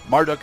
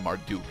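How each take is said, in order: First: The name is said in a quicker, shorter form. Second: The name is said in a slower, longer form. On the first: The speaker calls it wrong. "is just faster to say" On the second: The speaker calls it right. "the extra quarter second"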